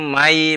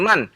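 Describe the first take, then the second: First: The final n merges into the next sound. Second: The final n is pronounced clearly. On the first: The speaker calls it right. "Mai ada idgham namanya" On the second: The speaker calls it wrong. "bukan man"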